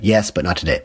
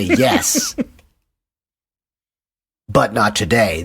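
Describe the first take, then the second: First: There is only a short pause after 'yes'. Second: There is a long pause after 'yes'. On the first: It comes across as matter-of-fact, not rude. The speaker calls it right. "less dickish if you don't have much of a pause there" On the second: It comes across as rude and teasing. The speaker calls it wrong. "then it's dickish"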